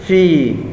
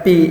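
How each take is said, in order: First: The word begins with an f sound. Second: The word begins with a p sound. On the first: The speaker calls it right. "Jadi fi, fi ya, bukannya pi ya" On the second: The speaker calls it wrong. "Untuk orang Sunda kadang-kadang dibaca pi ya"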